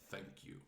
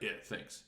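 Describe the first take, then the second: First: It is said sincerely, with real feeling. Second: It is said casually and offhand.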